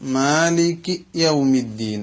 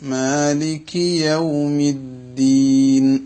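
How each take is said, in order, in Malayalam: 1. ആദ്യ വാക്കിന് ശേഷം ഒരു നിർത്തലുണ്ട്. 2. വാക്കുകൾ നിർത്തലില്ലാതെ ചേർന്നാണ് വരുന്നത്.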